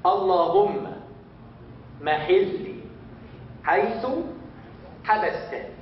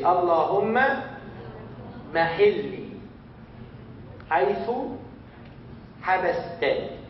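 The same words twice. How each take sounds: First: Slow again, Allahumma barely voiced at the start; slow second run-through; repeat slowly. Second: Word by word with long pauses; slow dictation pace; slow and clear. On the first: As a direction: model it again word by word. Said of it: "everybody say". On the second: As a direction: spell the phrase out slowly for learners. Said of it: "I will say it slowly". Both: Shown as a demonstration.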